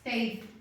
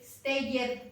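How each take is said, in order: First: The ending joins the word without an extra syllable. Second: The ending is said as a separate extra syllable. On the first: The speaker calls it right. "the pronunciation is stayed" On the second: The speaker calls it wrong. "you don't say"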